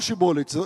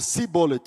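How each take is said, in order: First: The word begins with a sh sound. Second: The word begins with an s sound. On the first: This is how the people of Gilead say it. The speaker calls it right. "eles não falam Shibolet" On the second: This is how the people of Ephraim say it. The speaker calls it wrong. "eles falam Sibolet. Ao invés de usar o Shin, eles usavam um Samer"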